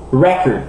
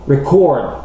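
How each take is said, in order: First: "Record" as a noun, stressed on REC; first-syllable stress. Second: "Record" as a verb, stressed on CORD; last-syllable stress. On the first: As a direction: hit the first syllable of "Record", reduce the second. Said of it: "l'accent est normalement sur la première syllabe". (« Record » accentué sur la première syllabe) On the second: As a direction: hit the second syllable of "Record". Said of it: "l'accent est normalement sur la dernière syllabe". (« Record » accentué sur la dernière syllabe) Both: Shown as a demonstration.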